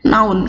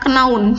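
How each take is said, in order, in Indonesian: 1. Kata ini diawali dengan bunyi n. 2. Kata ini diawali dengan k yang dibunyikan. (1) "tapi noun, k-nya hilang" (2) "bukan kenaun"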